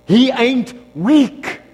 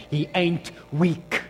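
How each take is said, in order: First: Louder, higher and slow; the booming repeat that drives it home; loud, slow declaration. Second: Slow and deliberate; a slow first statement before the big repeat; slow, measured. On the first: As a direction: preach it, hitting weak hard. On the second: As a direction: lay it down slowly, word by word. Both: Shown as a demonstration.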